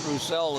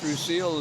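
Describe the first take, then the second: First: The name is said with a different vowel sound. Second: The name is said with an 'ee' vowel sound. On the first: The speaker calls it wrong. "and not Roussel, as I was saying earlier" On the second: The speaker calls it right. "Two E's together makes an E sound, so I guess it's Roussel"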